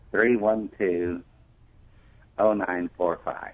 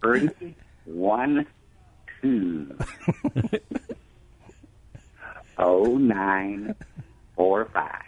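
First: The number is said fast. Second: The number is said slowly.

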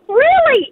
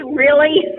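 First: It sounds impressed and pleased. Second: It sounds disapproving and annoyed.

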